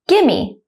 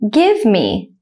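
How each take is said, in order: First: The two words are run together quickly. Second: The two words are said slowly and separately. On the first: "at a normal speed, like a native speaker" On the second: "one time slowly"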